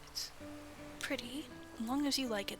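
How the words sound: There is a pause after pretty. The hair is pretty if you like it. The speaker calls it right.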